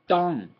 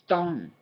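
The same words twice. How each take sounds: Both takes have the same delivery.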